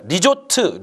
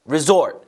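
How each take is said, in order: First: It is said with Korean sounds and a final vowel. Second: It is said with English sounds and a z sound. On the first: The speaker calls it wrong. "리조트가 아니라요" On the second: The speaker calls it right. "Z 발음 있죠?"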